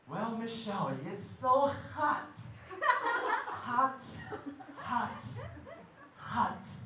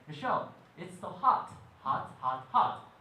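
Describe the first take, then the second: First: It is said in a flirtatious, suggestive tone. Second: It is said in a plain, friendly tone.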